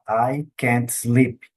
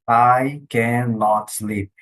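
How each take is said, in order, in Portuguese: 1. A palavra cannot é contraída para can't. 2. A palavra cannot é dita por extenso. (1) "Vai falar" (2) "Você nunca vai ouvir"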